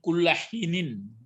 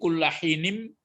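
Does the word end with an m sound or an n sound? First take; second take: n; m. First: The word ends with an n sound. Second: The word ends with an m sound. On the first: "dia baris dua ini kullahinin" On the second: "karena disambut oleh ba maka jadi mim bunyinya"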